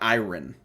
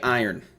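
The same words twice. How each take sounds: First: The word is said with a non-Ohio pronunciation. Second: The word is said with an Ohio pronunciation. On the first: The speaker calls it wrong. "not iron" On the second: The speaker calls it right. "here in Ohio we say iron"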